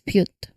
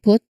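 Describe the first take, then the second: First: A y sound comes between p and vowel. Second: The p goes straight into the vowel. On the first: "In some accent, it's pronounced as pute" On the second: "the word put"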